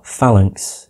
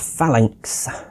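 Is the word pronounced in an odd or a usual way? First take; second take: usual; odd. First: The word is pronounced in the usual way. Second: The word is pronounced in an odd way. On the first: The speaker calls it right. "Or Phalanx, instead of saying it weirdly" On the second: The speaker calls it wrong. "instead of saying it weirdly, like I did to begin with"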